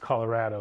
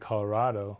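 First: The 'ra' vowel sounds like the 'a' in 'cat'. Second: The 'ra' vowel sounds like the 'a' in 'father'. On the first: The speaker is a long-time local. "Locals will say, well, of course it's Colorado" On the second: The speaker is a newcomer following the Spanish pronunciation. "So it should be Colorado, like avocado"

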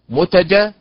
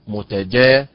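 First: The stress falls on the first syllable, mu. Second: The stress falls on the third syllable, ja. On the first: The speaker calls it wrong. "هي ليست متجا" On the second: The speaker calls it right. "وإنما متجا، فالنبر على حركة الجيم"

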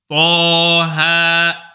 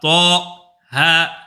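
First: The two syllables are joined without any break. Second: There is a break between the two syllables. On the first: The speaker calls it right. "Pas du tout" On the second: The speaker calls it wrong. "tu ne marques pas d'arrêt entre le to et le ha"

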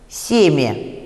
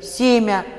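First: The final vowel is a short, i-like reduced vowel. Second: The final vowel is a short, a-like vowel. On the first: "по правилу должно быть семя, то есть короткий ерь должен быть после мягкого" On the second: "А произносим мы короткий такой «а»"

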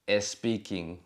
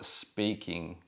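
First: An extra e vowel comes before the s. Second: The word starts directly with the s sound. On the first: The speaker calls it wrong. "no es speaking" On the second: The speaker calls it right. "o speaking"

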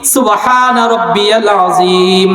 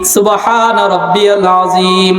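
No difference in how they are said.

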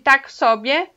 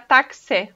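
First: Both words are said in full, three syllables. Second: The phrase is shortened to two syllables. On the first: A correct, neutral way to say so-so. "É uma forma correta" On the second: A very informal way, only for friends and family. "fazem isso mais curto e fica taxé"

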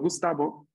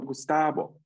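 First: The 'a' vowel is short. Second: The 'a' vowel is lengthened. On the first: This is the name as pronounced in its home country. The speaker calls it right. "no Gustavo" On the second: This is the version others found easier to say. The speaker calls it wrong. "una A larga en mi nombre"

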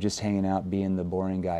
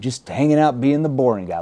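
First: The tone is flat and serious. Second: The tone is light and playful. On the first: It comes across as awkward and off-putting. The speaker calls it wrong. "if I said it in this tone, ... Whoa, that's kind of weird, right?" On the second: It disarms the listener and invites a friendly reply. The speaker calls it right. "See, I used a playful tone"

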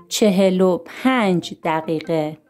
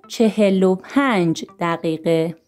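No difference in how they are said.

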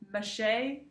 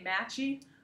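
First: The middle consonant is a 'sh' sound. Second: The middle consonant is a 'ch' sound. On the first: "or they say Mache" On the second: "a lot of them say Matchy"

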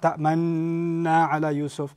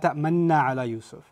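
First: The doubled n sound is held long. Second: The doubled n sound is kept short. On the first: The speaker calls it wrong. "It's not ta'manna ala Yusuf" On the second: The speaker calls it right. "But here you're not allowed to extend it"

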